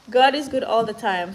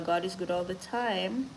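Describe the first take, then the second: First: Louder, laughing, higher joyful repeat. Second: Said in the usual way. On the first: Real, not acted. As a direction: laugh it out with joy.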